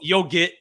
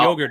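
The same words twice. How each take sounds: First: It is said in a Boston accent. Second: It is said in a standard accent. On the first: "It's yo yogurt" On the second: "we don't eat"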